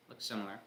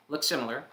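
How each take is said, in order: First: Quiet aside. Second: Said in the usual way. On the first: Shown as a demonstration.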